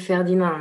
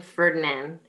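First: Ferdinand said the French way, fair-dee-NAHN; French pronunciation. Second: Ferdinand said the English way, FUR-di-nand; English pronunciation. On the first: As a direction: say Ferdinand with a nasal French ending, no final d. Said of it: "in a French brain". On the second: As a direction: say Ferdinand with an English r and a hard final d. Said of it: "in a French brain, you don't think Ferdinand". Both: Shown as a demonstration.

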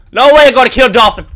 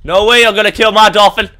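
First: Louder, faster protest. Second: Loud protest. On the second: Gamer protesting loudly. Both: Real, not acted.

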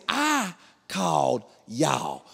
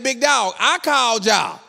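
First: Drawn-out, word-by-word protest; slow disbelieving protest. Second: High, loud comic outrage; indignant protest. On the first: Husband reminding police who called, slow disbelief. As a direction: space out every word in disbelief. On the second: Husband to police he called, loudly indignant. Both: Retold or imitated.

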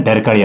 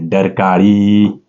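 First: Said in the usual way. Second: डरकाळी stretched out very slowly; drawn-out repeat. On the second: Shown as a demonstration. Teacher giving students the tiger's sound word, डरकाळी drawn out slowly. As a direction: draw out डरकाळी for emphasis.

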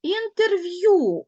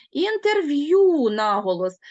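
First: Інтерв'ю drawn out slowly with the final ю stressed, a little louder; teacher models the word after its transcription. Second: Інтерв'ю with the stress leaned on the final ю, slowly; teacher marks the stress in інтерв'ю; stressed ending. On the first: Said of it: "ми його не чітко чуємо". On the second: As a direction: land the weight on the last syllable of Інтерв'ю. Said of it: "у нас ю позначає два звуки". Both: Shown as a demonstration.

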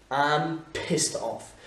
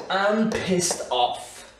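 First: Slow, calmer repeat at usual level. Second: Very slow, high and louder, each word apart; slow teaching demo. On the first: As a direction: say it again slowly and evenly. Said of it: "repeat of the expression". (répétition lente et calme) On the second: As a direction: drill it out word by word for learners. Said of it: "demo of the expression". (très lent, articulé pour l'élève) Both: Shown as a demonstration.

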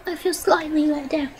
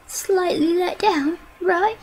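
First: Said in the usual way. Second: Slow and higher, stretched words; drawn out. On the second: Real, not acted. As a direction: stretch each word out slowly. Repeats the phrase, drawn out.

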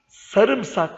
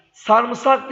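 First: Said in the usual way. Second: "Sarımsak" as sarmısak, slow; wrong pronunciation. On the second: Shown as a demonstration. Teacher demonstrates the common error "Sarımsak", slowly. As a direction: say "Sarımsak" with the vowels swapped, sarmısak. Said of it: "Sarımsak değil".

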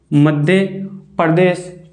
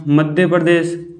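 First: Madhya, then a pause, then Pradesh; split with pause. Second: Said in the usual way. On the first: Shown as a demonstration. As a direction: break Madhya from Pradesh so pupils repeat each. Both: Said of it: "क्या आया?".

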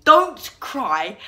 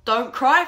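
First: DON'T CRY drawn out slow and loud; emphatic warning. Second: Said in the usual way. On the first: Acted. Vlogger lays down the challenge rule, slow emphatic warning. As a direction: hit both words of "Don't cry" slowly and hard.

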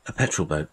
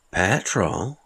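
First: Said in the usual way. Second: "Petrol?" asked back with a puzzled rise; puzzled echo. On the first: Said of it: "Petrol?" the man replied, puzzled". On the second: Acted. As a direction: repeat "Petrol?" as a baffled question. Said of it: "the man replied, puzzled".

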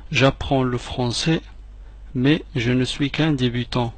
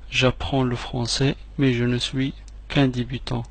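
Both takes have the same delivery.

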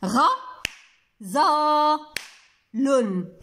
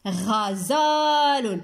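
First: غزال broken into three separate syllables; slow syllable-by-syllable sounding out; syllables with claps. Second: غزال joined up with a long middle vowel; slow, connected model pronunciation; whole word, stretched. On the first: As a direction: pause fully after each syllable, as if clapping. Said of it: "غادي نديرها بالمقاطع وبالتصفيق". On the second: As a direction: blend the syllables slowly into one word. Blends syllables into whole word. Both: Shown as a demonstration.

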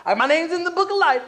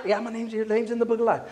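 First: High-pitched whiny objection; mock defensive protest. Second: Said in the usual way. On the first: Believer excusing himself to the preacher, mock defensive. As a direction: insist in a raised, put-on voice. Resister's voice, then answered plainly.

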